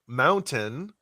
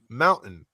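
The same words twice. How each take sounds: First: The t in the middle is clearly pronounced. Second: The t in the middle is dropped or swallowed. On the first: The speaker calls it right. "enunciate mountain" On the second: The speaker calls it wrong. "instead of saying mountain"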